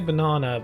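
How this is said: It is said with a British accent. "we say banana"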